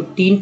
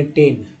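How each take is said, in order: First: टीन with a stretched long ee vowel; long ee reading. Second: टेन said as plain English ten, short e; reading it as ten. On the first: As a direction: say टीन, drawing out the ee as the letter name. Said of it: "जब ई को ई पढ़ रहे हैं". (टीन में लंबी ई की ध्वनि) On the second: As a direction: read टेन the ordinary way, short vowel. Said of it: "आप कहेंगे टेन". (टेन को छोटे ए के साथ सामान्य रूप से) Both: Shown as a demonstration.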